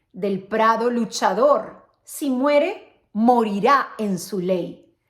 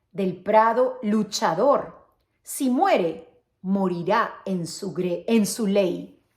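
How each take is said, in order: No difference in how they are said.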